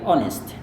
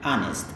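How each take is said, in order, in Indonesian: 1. Diucapkan dengan aksen Inggris. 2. Diucapkan dengan aksen Amerika. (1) "kalau Anda mau pakai British" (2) "kebiasaan orang Amerika"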